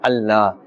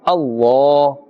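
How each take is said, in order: First: The L is light and thin. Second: The L is heavy and full-mouthed. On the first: The speaker calls it wrong. "we will not pronounce with in a flat tone or a thin tone" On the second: The speaker calls it right. "With a full mouth and a thick tone"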